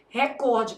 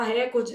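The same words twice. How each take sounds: First: "Recorde" with COR stressed; stress on second syllable. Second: "recorde" with RE stressed, popular way; stress on first syllable. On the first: Teacher giving the exam's correct form, stress on COR. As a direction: say "Recorde" as re-CÓR-de. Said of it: "porque essa palavra é paroxítono". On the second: Teacher quoting how people say it, stress on RE. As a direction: say "recorde" as RÉ-cor-de. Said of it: "o certo é o quê". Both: Shown as a demonstration.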